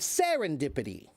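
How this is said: The word is said strongly and confidently. Nobody doubts that it is right. The speaker calls it right. "I said it strongly"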